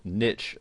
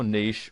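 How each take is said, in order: First: "niche" said as NITCH, rhyming with rich; alternative pronunciation. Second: Said in the usual way. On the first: Shown as a demonstration. Presenter offering how some people pronounce it, "niche" as NITCH. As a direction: say "niche" with a short i and a tch ending. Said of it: "as some people pronounce it". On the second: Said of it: "or niche as some people pronounce it".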